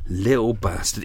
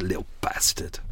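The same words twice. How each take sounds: First: Said in the usual way. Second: Whispered curse. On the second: Real, not acted. Muttering at the bird.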